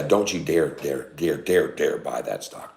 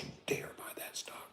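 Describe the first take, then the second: First: Said in the usual way. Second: Hushed whispered warning. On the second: Real, not acted. Stock streamer warning a viewer off a stock, whispering. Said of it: "Why are we whispering?".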